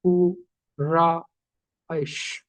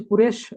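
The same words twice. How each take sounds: First: कु, रा, ऐश as three separate sounds with pauses; split into syllables. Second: Said in the usual way. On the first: Shown as a demonstration. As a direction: break the word syllable by syllable: कु... रा... ऐश. (कु, रा, ऐश रुक-रुक कर, अक्षर तोड़कर) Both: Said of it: "ऐसे लिखा".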